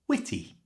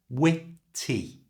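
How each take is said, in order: First: The word is said at normal speed. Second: The word is said slowly and carefully. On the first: "And at normal speed" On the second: "Put them together"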